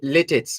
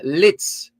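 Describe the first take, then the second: First: The name is said with two syllables. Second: The name is said with one syllable. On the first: This is how people locally say it. "it is pronounced in Jamaica as lit, litits" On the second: This is the original pronunciation. "we have found that it's actually uh lits"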